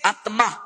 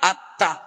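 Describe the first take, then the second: First: An m sound is heard after the t. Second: No m sound follows the t. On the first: This is the Sanskrit pronunciation. "সংস্কৃতে" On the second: This is the Bengali pronunciation. "বাংলায়"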